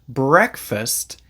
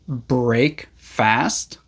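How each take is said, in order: First: It is said as one word, second part reduced. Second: It is said as two separate full words. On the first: The speaker calls it right. "we pronounce it breakfast" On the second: The speaker calls it wrong. "No, that's not how we say it"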